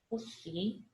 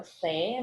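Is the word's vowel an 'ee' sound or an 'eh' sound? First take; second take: ee sound; eh sound. First: The vowel sounds like 'ee', as in 'see'. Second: The vowel sounds like 'eh', as in 'seh'. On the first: This is the regional everyday pronunciation. "a gente fala o si por conta do som do, do, do é" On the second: This is how the word is written. "Que é o sé"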